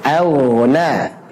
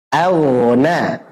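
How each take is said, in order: The two takes are said the same way.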